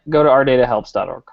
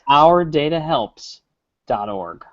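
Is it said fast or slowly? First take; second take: fast; slowly. First: It is said fast. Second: It is said slowly.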